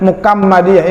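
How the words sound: The middle consonant is a k sound. "kadang-kadang dibaca Mukammadiyah"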